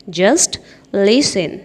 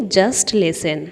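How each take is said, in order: First: Slow teaching repeat. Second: Said in the usual way. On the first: Shown as a demonstration. Teacher modelling an English phrase for students, very slow. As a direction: stretch out "just listen", leaning on "just". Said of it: "teacher repeats phrase slowly". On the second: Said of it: "teacher repeats phrase".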